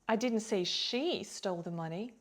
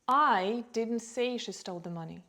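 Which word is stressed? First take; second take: she; I. First: The stress is on the word "she". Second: The stress is on the word "I". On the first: Another person stole it. "maybe another person did" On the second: Someone else said it. "maybe someone else said it"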